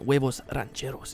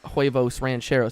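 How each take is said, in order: First: It is said with a Spanish accent. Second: It is said with an English accent. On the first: Listeners assume the speaker speaks the language. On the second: The speaker does not seem to speak the language.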